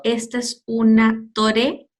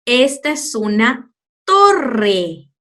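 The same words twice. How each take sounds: First: "torre" with a single tapped r; teacher demoing the mistake; wrong soft r. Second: Slow "torre" with a strong trilled rr; teacher showing the correct sound; rolled rr. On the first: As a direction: say "torre" like "tore". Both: Shown as a demonstration. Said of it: "Te imaginas si lo digo".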